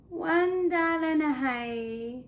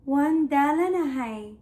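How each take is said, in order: First: Weary, drawn-out falling delivery; tired. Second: Said in the usual way. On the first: Shown as a demonstration. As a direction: let the words droop slowly as if exhausted. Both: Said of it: "I'm so tired".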